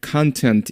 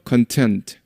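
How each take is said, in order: First: Content stressed on the first syllable, CON-tent; stress on the front. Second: Content with stress on the second syllable, con-TENT; stress on the end. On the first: Teacher showing content as noun, CON-tent. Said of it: "그래서 강세도". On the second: Teacher recalling adjective stress, con-TENT. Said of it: "강세 뒤에 있다고 그랬죠". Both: Shown as a demonstration.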